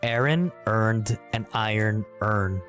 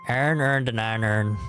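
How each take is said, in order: First: Each word is carefully and distinctly enunciated. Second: The words are said casually, in a natural way. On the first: "I want to enunciate this as best I can" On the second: "if I were to say it um, normally"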